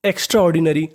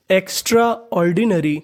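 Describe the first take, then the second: First: Said in the usual way. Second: Extraordinary drawn out very slowly; teacher modelling extraordinary slowly; slow syllable reading. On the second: Shown as a demonstration. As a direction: stretch each syllable of extraordinary.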